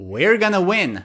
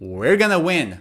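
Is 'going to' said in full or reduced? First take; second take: reduced; reduced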